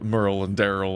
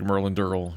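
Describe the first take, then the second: First: The two names are said clearly and separately. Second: The two names are mumbled together as one. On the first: The speaker calls it right. "he does not enunciate" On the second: The speaker calls it wrong. "he says Merlin Durrell like it's one word"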